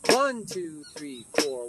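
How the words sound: The numbers one and four are stressed. "Now I'm going to go to the 4, 1, which is the same as 1, 4"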